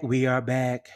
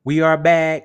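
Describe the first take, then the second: First: Said in the usual way. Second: Loud, higher return call; booming welcome back to the show; loud we are back. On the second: Acted. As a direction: announce the return like a host.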